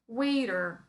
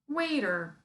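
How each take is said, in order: First: Said in an American accent with a soft t. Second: Said in an American accent with a soft t.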